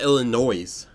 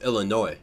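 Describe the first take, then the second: First: The final S sound is pronounced. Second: The final S sound is left silent. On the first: The speaker calls it wrong. "Not Illinois" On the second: The speaker calls it right. "you don't say the S at the end"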